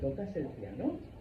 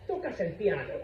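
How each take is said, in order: First: The voice rises at the end, a question. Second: The voice falls at the end, a statement.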